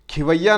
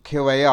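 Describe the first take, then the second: First: Flag खिवैया as wrong; wrong form, louder. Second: खेवैया said plainly, the खे clear; correct form. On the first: Teacher correcting students, marking the wrong word. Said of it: "खिवैया नहीं होता". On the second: Teacher correcting students, giving the right word. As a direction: stress खे in खेवैया. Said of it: "खेवैया होता है". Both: Shown as a demonstration.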